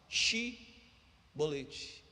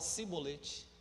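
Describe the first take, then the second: First: The word begins with a sh sound. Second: The word begins with an s sound. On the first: The speaker can say the word correctly. The speaker calls it right. "Som de C H X" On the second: The speaker cannot say the word correctly. The speaker calls it wrong. "não podendo pronunciar corretamente a palavra"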